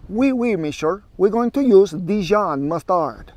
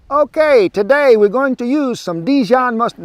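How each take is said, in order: First: Lightly hammed-up French accent; a playful fake French chef, slowed down; mock French accent. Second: Hammy fake Italian accent, high and loud; mock Italian accent. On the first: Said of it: "Let's do French". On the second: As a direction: playfully ham up a fake Italian chef. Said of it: "Wrong accent".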